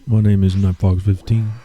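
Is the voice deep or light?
deep. The voice is deep with extra bass. "I think I can throw a little more bass in my voice"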